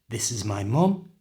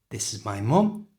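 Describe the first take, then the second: Both takes have the same delivery.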